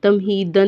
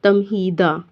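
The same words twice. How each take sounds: First: तमहीदन closed with an n; wrong "an" ending. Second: तमहीदा finishing on an open "daa"; open "aa" ending. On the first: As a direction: end तमहीदन on "-dan". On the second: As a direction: drop the n at the end of तमहीदा. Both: Shown as a demonstration. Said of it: "तमहीदन नहीं".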